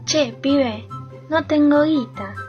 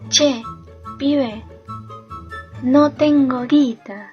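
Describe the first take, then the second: First: It is said at normal speed. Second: It is said more slowly.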